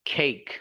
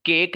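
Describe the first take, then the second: First: "खेक" for cake, puff of air on the first k; aspirated K. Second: "केक" with a hard k, no puff; wrong unaspirated K. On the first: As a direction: breathe out as "खेक" starts. (हवा वाले ख से "खेक") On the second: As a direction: start "केक" on a dry k. (बिना हवा के "केक") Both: Shown as a demonstration. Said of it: "केक नहीं".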